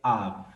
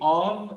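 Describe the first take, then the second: First: The vowel is a light, subtle a sound. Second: The vowel is a full, rounded o sound. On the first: The speaker calls it right. "um sonzinho de um Azinho bem sutil" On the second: The speaker calls it wrong. "Em vez de of"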